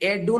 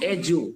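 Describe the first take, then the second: First: The middle consonant is a d sound. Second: The middle consonant is a j sound. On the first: The speaker calls it wrong. "এডু না বলে" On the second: The speaker calls it right. "আমরা বলবো জু"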